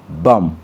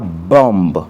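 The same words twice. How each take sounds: First: The word ends in m with no b. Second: A b sound is pronounced at the end. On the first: The speaker calls it right. "on dit bomb" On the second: The speaker calls it wrong. "On ne dit pas"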